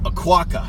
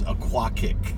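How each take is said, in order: First: The name ends with a plain 'kuh' sound. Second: The name ends with a 'kick' sound.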